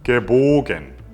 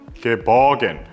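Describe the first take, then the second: First: The middle vowel is a rounded 'o' sound. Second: The middle vowel is a flat 'uh' sound. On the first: The speaker calls it right. "발음 기호대로 흰 게보겐" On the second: The speaker calls it wrong. "많은 사람들이 실수합니다"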